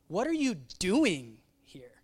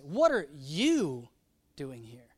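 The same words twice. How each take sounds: First: The word doing carries the emphasis. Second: The word you carries the emphasis. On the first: Questioning whether this accomplishes anything. "Like is this accomplishing?" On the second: Of all people, this one should not be here. "Like you, Elijah, of all people"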